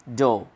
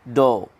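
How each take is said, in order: No difference in how they are said.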